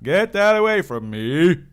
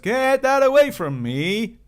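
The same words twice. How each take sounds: First: The voice is pitched lower and deeper. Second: The voice is fairly high, not very deep.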